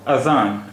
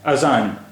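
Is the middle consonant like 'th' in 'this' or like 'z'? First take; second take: th; z. First: The middle consonant is a soft th sound. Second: The middle consonant is a buzzing z sound. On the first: This is how it is said in Arabic. "अरबी में इसका उच्चारण होता है" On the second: This is how most Urdu speakers say it. "यहां हमने जाल को भी जा की तरह ही प्रोनाउंस किया है"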